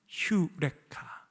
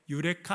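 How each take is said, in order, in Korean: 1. 이 단어는 h 소리로 시작해요. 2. 이 단어는 평범한 모음 소리로 시작해요. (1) "정확한 발음은 휴레카" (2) "유레카 아니고"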